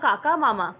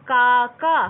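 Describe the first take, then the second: First: কাকা and মামা said loud with the আ stretched; long আ demo. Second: কাকা said very loud with both আ sounds stretched long and a rising end; drawn out. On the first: Teacher showing students the long আ in কাকা and মামা. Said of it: "টেনে টেনে উচ্চারিত করছে". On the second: Teacher exaggerating the long আ in কাকা for students. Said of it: "টেনে টেনে উচ্চারণ করছি". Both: Shown as a demonstration.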